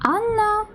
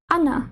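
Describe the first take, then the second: First: The middle n sound is held long. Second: The middle n sound is short. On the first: "Коли ми кажемо «Анна», ... ми чуємо це подвоєння" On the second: "Але в німецькій мові «Анна», ... його немає"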